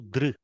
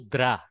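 First: The syllable ends in a vocalic 'r' sound. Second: The syllable ends in a plain 'a' vowel. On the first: The speaker calls it right. "do dr" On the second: The speaker calls it wrong. "don't do dra"

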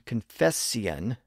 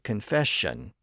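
First: The middle consonant is an s sound. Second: The middle consonant is an sh sound. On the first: "confession became confession" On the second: "confession became confession"

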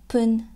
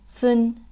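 First: The word begins with a p sound. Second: The word begins with a soft f-like sound. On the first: "Or sometimes pun"

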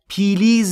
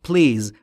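First: A short vowel is inserted between p and l. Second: The p and l are joined with no vowel. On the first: The speaker calls it wrong. "پیلیز نیست" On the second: The speaker calls it right. "بین پی و ال صدایی وجود نداره"

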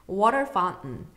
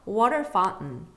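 No difference in how they are said.

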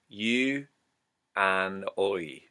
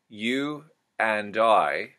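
First: The word 'I' has an 'oi' vowel. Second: The word 'I' has a plain 'eye' vowel.

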